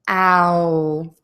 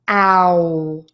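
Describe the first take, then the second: The two takes are said the same way.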